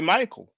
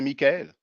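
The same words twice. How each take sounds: First: The name is pronounced with English sounds. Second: The name is pronounced with French sounds. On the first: "In English, you say" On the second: "In French, we say"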